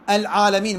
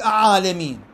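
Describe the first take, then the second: First: "العالمين" as al-alamin, l audible; higher, sound the l before ayn in "العالمين"; lam pronounced clearly. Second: "أعالمين" with no first l, a held ayn; higher, swallow the article's l in "أعالمين"; missing l, doubled ayn in "أعالمين"; lam wrongly merged. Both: Shown as a demonstration. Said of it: "ما أقول".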